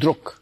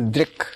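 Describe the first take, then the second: First: The vowel sounds like a 'u'. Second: The vowel sounds like an 'i'. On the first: This is how southern and western India say it. "if you're from southern part or the western part of India, you'll pronounce it as druk" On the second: This is how the rest of India says it. "If you're from where I am from, we pronounce it as drik"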